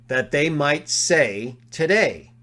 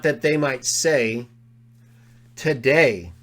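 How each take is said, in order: First: Slow "That they might say today" in one phrase; today joined to say. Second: "that they might say", a pause, then "today"; pause before today. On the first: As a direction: keep today with say. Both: Shown as a demonstration.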